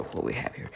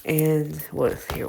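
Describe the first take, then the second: First: Breathy whisper to herself. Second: Said in the usual way. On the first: Real, not acted. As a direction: whisper it under your breath. Muttered reread of own question.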